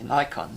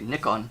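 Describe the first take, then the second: First: It uses the American pronunciation. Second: It uses the pronunciation from outside the US. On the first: This is how it is said in the US. "I've been here so long, sometimes I get mixed up and say Nikon" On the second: This is how it is said where the speaker grew up. "Where I grew up, we say Nikon"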